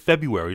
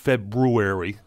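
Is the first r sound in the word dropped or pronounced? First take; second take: dropped; pronounced. First: The first r sound is left out. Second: The first r sound is clearly said. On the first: The speaker calls it wrong. "I know this is mispronunciation" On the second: The speaker calls it right. "how it's written"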